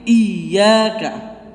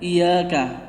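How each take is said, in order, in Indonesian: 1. Bunyi y itu dobel dan ditekan. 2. Bunyi y itu pendek dan tunggal. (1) "tapi iyyaka. ... Iyanya itu ditasdid" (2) "Jangan membaca iyyaka"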